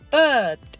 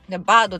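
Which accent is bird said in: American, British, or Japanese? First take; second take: British; Japanese. First: It is said with no curled r sound. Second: It is said in a Japanese katakana style. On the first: "ブリティッシュ発音なんですよ。全然舌巻かないんで" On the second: "バードでももちろんないし"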